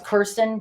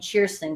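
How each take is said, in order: First: The name begins with a hard k sound. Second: The name begins with a ch sound. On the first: This is the usual way the family said it. "Her name was Kirsten" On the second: This is how it is said in Scandinavia. "that's how you say it in Scandinavia"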